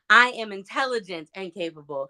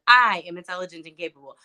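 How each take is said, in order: First: The stress falls on the word "intelligent". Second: The stress falls on the word "I".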